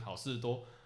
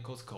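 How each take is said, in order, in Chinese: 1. 它是用普通话音节说的：kao shi duo。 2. 它是用英文的发音说的。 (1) "我都念考试多" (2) "我不念Costco"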